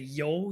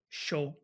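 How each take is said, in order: First: The word begins with a 'y' sound. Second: The word begins with a 'sh' sound. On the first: "you wouldn't say yo" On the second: "in Argentina, it sounds a bit like sh or j"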